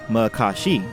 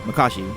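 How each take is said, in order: First: Each syllable is said separately and distinctly. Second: The syllables flow together in normal speech. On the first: "splitting each syllable distinctly" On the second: "actually saying it normally"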